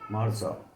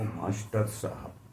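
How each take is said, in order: First: The word is shortened, dropping the middle sounds. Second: The word is said in full, with every sound. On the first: It is the easier form people say for comfort. "अपने मुंह के सुख के लिए मार साहब कर" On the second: It is the original full form of the words. "मार साहब है वो मास्टर साहब"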